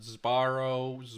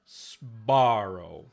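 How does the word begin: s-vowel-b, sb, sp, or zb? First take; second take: zb; sb. First: The word begins with a buzzing z before b. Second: A hissing s runs straight into voiced b. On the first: "they make this into like a Z" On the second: "they don't say Sbarro"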